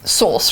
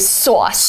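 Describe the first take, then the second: First: The word is said in a British accent. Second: The word is said in a New York accent. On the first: "British people say like sauce" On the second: "New Yorkers tend to say sauce"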